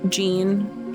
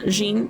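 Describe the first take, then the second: First: The name is said with an American pronunciation. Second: The name is said with a French pronunciation. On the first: "just American Jean" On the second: "like Jean Valjean"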